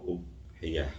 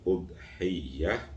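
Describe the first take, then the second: First: The y sound is short and single. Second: The y sound is held long and doubled.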